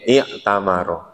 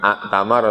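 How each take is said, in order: First: The word begins with an 'i' vowel. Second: The word begins with an 'a' vowel. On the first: The speaker calls it right. "tapi i'tamaro" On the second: The speaker calls it wrong. "Bukan a'tamaro"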